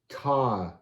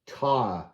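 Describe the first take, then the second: First: The vowel is a long I sound. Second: The same.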